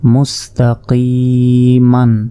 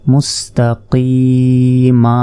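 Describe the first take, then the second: First: The word ends with a final n sound. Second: The word ends in a long vowel without n. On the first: Reading continues past this word. "মিম দুই জবর মান" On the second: Reading stops on this word. "যদি আমরা ওয়াকফ করি তাহলে"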